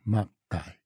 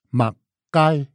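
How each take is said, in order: First: The stress is on the first syllable. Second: The stress is on the second syllable. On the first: This is the Hailu accent. "我们讲马盖" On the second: This is the Sixian accent. "四线讲马盖"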